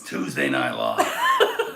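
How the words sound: It is said in a put-on performing voice.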